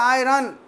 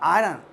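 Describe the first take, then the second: First: The r sound is strong and forceful. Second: The r sound is soft and light. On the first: The speaker calls it wrong. "अपने बिहार में बोलता" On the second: The speaker calls it right. "जोर से नहीं बोलेंगे"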